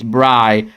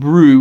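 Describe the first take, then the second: First: The vowel sounds like the word bry. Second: The vowel sounds like the word brew. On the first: The speaker calls it right. "It's it's Bry" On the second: The speaker calls it wrong. "So it's not brew"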